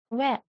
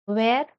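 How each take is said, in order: First: "where" as veh, silent r; modelled pronunciation. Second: "Where" with final r sounded; common pronunciation. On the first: Teacher drills the eleventh word, "where" without r. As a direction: end "where" on the vowel, no r. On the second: Teacher drills the eleventh word, "Where" with clear r. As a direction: pronounce the r at the end of "Where". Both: Shown as a demonstration.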